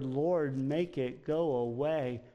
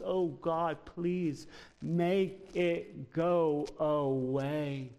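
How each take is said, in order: First: Said in the usual way. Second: Drawn-out, slow plea to God; slow pleading prayer. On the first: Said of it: "That's what Paul is asking of the Lord". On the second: Retold or imitated. Preacher voicing Paul's slow plea for the pain to go. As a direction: stretch each word out like a begging prayer. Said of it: "It's what Paul wants".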